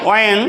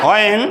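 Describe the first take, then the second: Both takes have the same delivery.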